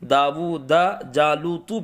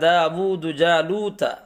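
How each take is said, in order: First: The last word ends with a 'u' vowel. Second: The last word ends with an 'a' vowel. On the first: Goliath killed David. The speaker calls it wrong. "ता के ज़बर को ज़बर ना पढ़ के पेश पढ़ दे" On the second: David killed Goliath. The speaker calls it right. "माना है दाऊद ने जालूत को कत्ल किया"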